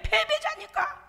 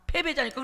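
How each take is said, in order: First: Drawn-out, high mocking stress on 패배자니까; slow high taunt. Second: Said in the usual way. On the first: Preacher taunting the defeated powers of darkness, slow and high.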